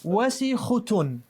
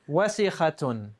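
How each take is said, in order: First: The vowel before the ending is u. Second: The vowel before the ending is a. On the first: The speaker calls it wrong. "change this from a, fat, uh, a fatha to a dhamma" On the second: The speaker calls it right.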